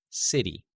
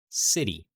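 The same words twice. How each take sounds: The two takes are said the same way.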